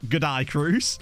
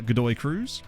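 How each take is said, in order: First: It is said in a put-on Australian accent. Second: It is said in the speaker's ordinary accent.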